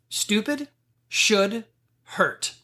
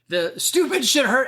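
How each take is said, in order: First: It is said slowly. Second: It is said at a normal, quicker pace.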